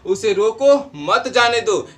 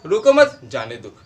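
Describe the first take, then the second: First: The pause comes right after 'roko'. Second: The pause comes right after 'mat'.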